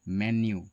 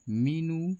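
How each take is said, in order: First: It starts with 'me' and ends in 'nyoo'. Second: It starts with 'mee' and ends in 'noo'. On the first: The speaker calls it right. "इसका सही उच्चारण होता है मेन्यू" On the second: The speaker calls it wrong. "ये दोनों गलत ही उच्चारण हैं"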